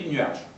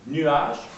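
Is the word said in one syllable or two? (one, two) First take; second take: one; two. First: The word is said in one syllable. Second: The word is said in two syllables. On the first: "on dit nuage. On fait une syllabe à partir de deux syllabes" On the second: "au lieu de dire nuage"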